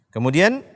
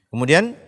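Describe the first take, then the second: The two takes are said the same way.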